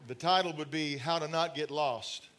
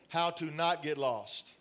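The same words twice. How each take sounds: First: Said in the usual way. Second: Slower, with the word "Not" leaned on; stress on not. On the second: Shown as a demonstration. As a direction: repeat the title slowly and hit "Not".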